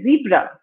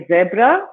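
First: "zebra" with a long ee, ZEE-bra; American "zebra", opening like "zee"; American pronunciation. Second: "zebra" with a short e, ZEB-ra; British "zebra", opening like "zed"; British pronunciation. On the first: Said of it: "my American friends will say zebra". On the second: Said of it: "In British English, I say zebra". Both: Shown as a demonstration.

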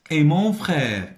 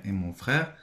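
First: "Et mon frère" high, loud and slow; emphatic dictation reading. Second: Said in the usual way. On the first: Shown as a demonstration. Teacher dictates the phrase to pupils, slow and emphatic. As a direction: project "Et mon frère" slowly for the class.

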